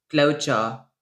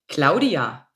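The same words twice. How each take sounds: First: It is said in Saxon dialect pronunciation. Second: It is said in standard German pronunciation.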